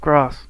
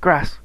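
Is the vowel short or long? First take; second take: long; short. First: The vowel is long and drawn out. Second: The vowel is short, as in Scouse.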